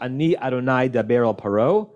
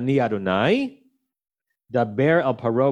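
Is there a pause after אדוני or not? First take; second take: no pause; pause. First: There is no pause after אדוני. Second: There is a pause after אדוני.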